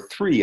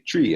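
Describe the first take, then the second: First: The word begins with a th sound. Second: The word begins with a t sound.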